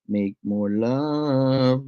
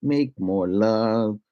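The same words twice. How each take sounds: First: Slow altered voice. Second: Slow chant. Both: Acted.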